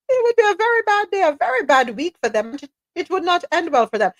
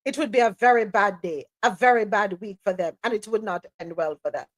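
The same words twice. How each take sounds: First: Mock quote pitched up high and quick at the start; high, singsong mocking toddler talk. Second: Said in the usual way. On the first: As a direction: imitate childish warnings in a high voice. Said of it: "Why is he talking like a toddler?".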